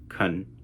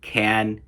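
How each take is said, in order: First: The word is said with a reduced vowel. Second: The word is said with a full vowel.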